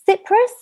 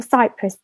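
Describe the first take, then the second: First: Cyprus with a short i, "SIP-russ"; mispronounced Cyprus. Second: Cypress as "SY-press", first syllable like "sigh"; cypress with long i. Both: Shown as a demonstration. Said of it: "my pronunciation is off sometimes".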